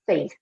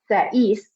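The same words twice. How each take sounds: First: The two vowels blend into one sound. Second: The two vowels are pronounced as separate sounds. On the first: The speaker calls it right. "we're saying it as one" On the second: The speaker calls it wrong. "like pronouncing the E and the I separately"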